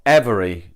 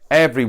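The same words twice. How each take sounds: First: It is said with three syllables. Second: It is said with two syllables. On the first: "every is not every" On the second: "We tend to kind of don't pronounce that second E. So it's like"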